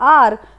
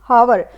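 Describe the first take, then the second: First: The word begins with a vowel sound. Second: The word begins with an h sound. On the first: The speaker calls it right. "इसको हम बोलते हैं आर" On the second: The speaker calls it wrong. "जब वो खुद से read करेगा तो वो प्रोनाउंस करेगा इसको हावर"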